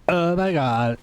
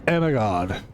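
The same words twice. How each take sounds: First: It is said in a Valley Girl voice. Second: It is said in his normal voice.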